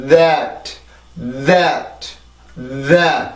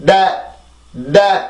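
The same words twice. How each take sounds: First: "that" with buzzing th gliding into the vowel; English "that", long voiced onset and light final t; natural voiced th. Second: "That" as an abrupt 댓, hard d with no buzz; short punched "dat" for "That"; wrong Korean-style onset. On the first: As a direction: vibrate the tongue before opening "that". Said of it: "이렇게 자연스럽게 넘어가기 위해서는". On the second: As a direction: skip the th vibration in "That", stop it like Korean ㄷ. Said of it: "이렇게 만들어내는 소리가 아니다". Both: Shown as a demonstration.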